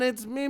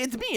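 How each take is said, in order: First: A milder, toned-down version of the character voice. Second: A loud, heavily exaggerated cartoon character voice. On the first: It is a happy medium that might work. The speaker calls it right. "kind of bring it down a little bit" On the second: It would be tiring to listen to for a whole film. The speaker calls it wrong. "you can't go full Charles Martinet"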